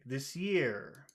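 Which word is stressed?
year. The stress falls on the word year. The speaker calls it right. "let's make year big"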